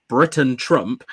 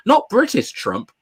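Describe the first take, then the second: First: Britain said firm and lower; stress on Britain. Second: British said slowly and higher; British Trump, the word British leaned on; stress on British. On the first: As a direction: Britain Trump, the word Britain punched. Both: Shown as a demonstration.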